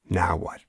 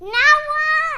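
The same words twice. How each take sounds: First: It follows a sigh and sounds tired and weary. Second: It sounds bouncy and excited, like a child.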